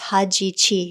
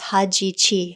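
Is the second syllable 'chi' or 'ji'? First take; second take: ji; ji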